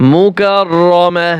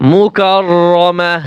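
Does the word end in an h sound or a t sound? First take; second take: h sound; h sound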